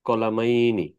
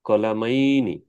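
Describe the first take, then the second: The two takes are said the same way.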